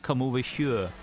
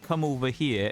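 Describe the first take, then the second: First: The word here has a Welsh glide sound. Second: The word here sounds plain and unaccented. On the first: The speaker calls it right. "as if you put a Y and a U in the middle of it" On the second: The speaker calls it wrong. "it's not come over here"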